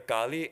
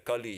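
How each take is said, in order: First: The first vowel is a long ah. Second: The first vowel is a short uh. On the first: It names the Divine Mother. "they put a macron over the A" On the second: It names the present age. "better spelled in English as K U L L"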